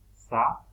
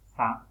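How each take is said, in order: First: Sa said with a plain oral a, no nasal sound. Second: Sa with a nasalised a, air through the nose; nasal sa. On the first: Teacher showing students the oral Sa. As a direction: keep the a of Sa in the mouth, not through the nose. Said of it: "Sa no tiene tilde nasal". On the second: Teacher contrasting it with the oral Sa for students. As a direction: let the a of sa ring through the nose. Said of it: "sa sí tiene tilde nasal". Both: Shown as a demonstration.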